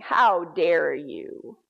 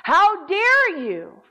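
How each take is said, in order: First: Low, drawn-out demonic threat; deep menacing voice. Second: High, booming, drawn-out demonic outrage; loud menacing voice. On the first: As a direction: stretch it out slowly in a deep, menacing register. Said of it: "a deep, menacing voice saying". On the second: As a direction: imitate a demon roaring a slow challenge. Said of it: "says loudly". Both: Retold or imitated.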